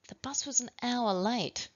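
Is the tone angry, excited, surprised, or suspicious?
suspicious. The sentence is said in a suspicious tone.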